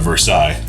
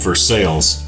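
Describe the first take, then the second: First: The name is said in the French way. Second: The name is said in a local American way. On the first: This is the usual way the name is said. "instead of Versailles" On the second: This is how the local town is named. "a town called Versailles"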